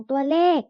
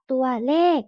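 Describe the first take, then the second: First: Said in the usual way. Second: ตัวเลข sounded out syllable by syllable; reading pronunciation. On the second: Shown as a demonstration. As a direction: read ตัวเลข as two separate syllables, tua-lek. (อ่าน ตัวเลข แยกทีละพยางค์) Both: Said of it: "อ่านว่า".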